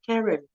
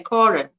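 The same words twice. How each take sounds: First: Karen with a flat "air" vowel, KAIR-en; American pronunciation. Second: Karen with an open "ah" vowel, KAH-ren; South African pronunciation. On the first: Explaining how Americans say the name, Karen as KAIR-en. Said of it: "that's not how you say it in the U S A". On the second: Showing how South Africans say the name, Karen as KAH-ren. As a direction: say Karen the Afrikaans way, first vowel as in "car". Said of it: "we say Karen". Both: Shown as a demonstration.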